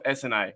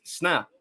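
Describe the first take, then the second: First: S N A said as three separate letters; spelled out letters. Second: Sna as one short syllable; said as word. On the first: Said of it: "I never call myself S N A". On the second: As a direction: run the letters together into one word, sna. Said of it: "I guess sna". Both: Shown as a demonstration.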